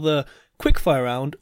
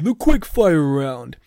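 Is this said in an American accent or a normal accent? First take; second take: normal; American. First: It is said in the speaker's normal accent. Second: It is said in a put-on American accent.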